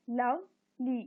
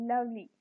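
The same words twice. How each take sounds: First: "lovely" in two slow, separate beats; split into syllables. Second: Said in the usual way. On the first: Shown as a demonstration. Teacher counting syllables for the class, "lovely" broken in two. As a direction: pause between लव and ली in "lovely". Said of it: "इनको अलग-अलग इसलिए कर दिया".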